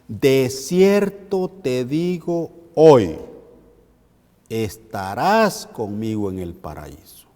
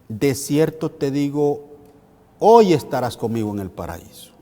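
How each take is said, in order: First: The pause comes right after the word hoy. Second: The pause comes right before the word hoy. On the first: The speaking happens today; the promise is for later. "si a este texto le ponemos una coma justo después de la palabra hoy, ¿cómo diría?" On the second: Being together happens today. "De la forma en que está en la pantalla, en la pantalla diría"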